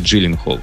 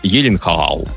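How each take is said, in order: First: The name begins with a 'dzh' sound. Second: The name begins with a 'y' sound. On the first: The speaker calls it wrong. "никакой он не Джилленхол" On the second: The speaker calls it right. "Он швед"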